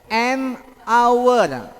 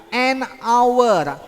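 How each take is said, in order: No difference in how they are said.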